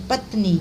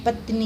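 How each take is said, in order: First: Said in the usual way. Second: पत्नी with a short final i; wrong final vowel. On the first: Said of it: "पत्नी नहीं". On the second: Shown as a demonstration. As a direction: clip the ee ending of पत्नी. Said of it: "नहीं".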